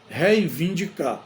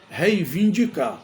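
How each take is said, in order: No difference in how they are said.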